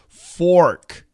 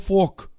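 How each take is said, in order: First: The vowel is a full O sound. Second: The vowel is not a full O sound. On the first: The speaker calls it right. "You absolutely need the O" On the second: The speaker calls it wrong. "Don't say fork, fork. It sounds like a Boston accent of a very bad word"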